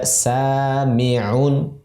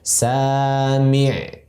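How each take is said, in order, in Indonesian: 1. Kata ini berakhir dengan vokal dan n. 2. Kata ini berhenti pada konsonan terakhirnya. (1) "Dalam kondisi wasol atau sambung kita baca" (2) "Ketika dalam kondisi waqaf atau berhenti, ... disukunkan ainnya"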